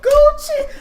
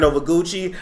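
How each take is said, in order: First: Mock crying wail. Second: Said in the usual way. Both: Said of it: "read you for crying".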